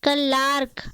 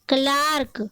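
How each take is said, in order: The two takes are said the same way.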